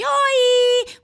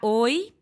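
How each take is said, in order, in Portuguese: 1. Soa agudo, estridente e alongado. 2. Soa mais curto, mais grave e menos estridente. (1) "se você tem a voz muito estridente" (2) "você pode encurtar oi"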